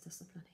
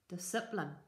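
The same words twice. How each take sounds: First: The word is said in the speaker's own accent. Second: The word is said in an imitated unfamiliar accent. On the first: This is the usual way the listeners say it. "he didn't pronounce it as discipline" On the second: Someone else said it this way. "He said, discipline"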